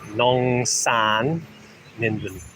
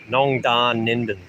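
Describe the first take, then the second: First: The second syllable starts with an S sound. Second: The second syllable starts with a D sound. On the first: The speaker calls it right. "If it doesn't have it, it's a S" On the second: The speaker calls it wrong. "you only pronounce it with a D, as a D when it has a line in it"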